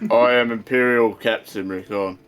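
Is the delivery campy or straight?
straight. It is said straight, without campiness.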